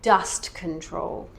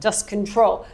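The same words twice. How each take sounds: First: The stress falls on the first word. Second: The stress falls on the second word. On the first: The speaker calls it right. "it's the dust that is the important thing" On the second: The speaker calls it wrong. "you can't emphasize the second word"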